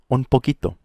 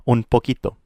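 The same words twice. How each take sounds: The two takes are said the same way.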